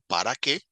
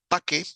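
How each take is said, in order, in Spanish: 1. La primera palabra se dice completa. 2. La primera palabra se acorta. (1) "en vez de decir para qué" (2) "lo decimos más corto"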